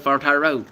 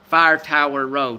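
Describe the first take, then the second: First: Tower is said quickly, sounding like tire. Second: Tower is said fully with two syllables. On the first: "I say it fast. Sounds like tire" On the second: "I don't say Fire Tower Road"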